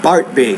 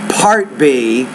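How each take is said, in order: First: The P is released with little or no air. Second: The P is released with a strong puff of air. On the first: The speaker calls it wrong. "not part B" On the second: The speaker calls it right. "You need to pronounce it with more air"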